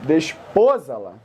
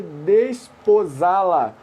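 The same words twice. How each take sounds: First: Desposá-la stressed on PO, as desPOsala; "desposá-la" misread with stress on PO; shifted word stress. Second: Desposá-la drawn out slowly, stressed on SÁ; slow, deliberate "desposá-la", accented A; stress on final syllable. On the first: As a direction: punch PO in "desposá-la", letting the ending drop. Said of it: "Que coisinha também". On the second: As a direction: stretch "desposá-la" with the weight on SÁ. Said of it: "ou desposá-la". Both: Shown as a demonstration.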